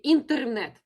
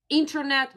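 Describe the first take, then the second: First: "internet" said the Russian way, like a strong Russian man; "internet" with a firm Russian accent; Russian pronunciation. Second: Said in the usual way. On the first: Shown as a demonstration. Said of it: "imagine that you're a strong Russian man". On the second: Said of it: "Internet will be internet".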